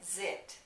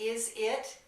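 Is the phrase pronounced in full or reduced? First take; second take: reduced; full. First: The first vowel drops, giving one syllable. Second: Both words are said separately with vowels.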